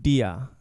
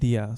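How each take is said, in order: First: The D is made away from the teeth. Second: The D is made against the front teeth. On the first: The speaker calls it wrong. "you're saying dia" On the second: The speaker calls it right. "the D needs to be placed more towards the back of the front teeth"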